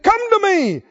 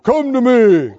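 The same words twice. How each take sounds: First: The voice is pitched fairly high. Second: The voice is pitched very low. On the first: The speaker calls it wrong. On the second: The speaker calls it right.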